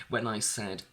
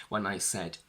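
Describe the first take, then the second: No difference in how they are said.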